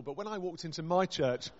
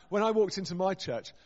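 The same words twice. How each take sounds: First: Said in the usual way. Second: "walked" punched, whole line louder; dramatic louder retake stressing "walked"; louder emphasis on walked. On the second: Shown as a demonstration. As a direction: repeat it, leaning hard on "walked". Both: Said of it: "repeats the line louder".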